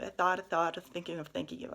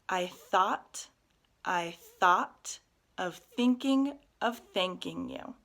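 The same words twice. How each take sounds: First: It is said very quickly. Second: It is said slowly. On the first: "saying it as fast as you can three times in a row" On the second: "one more time slowly"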